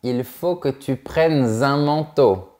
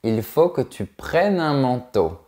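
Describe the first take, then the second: First: A linking consonant joins the words. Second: The words are said without a linking consonant. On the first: The speaker calls it wrong. "On ne dit pas" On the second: The speaker calls it right. "On dit"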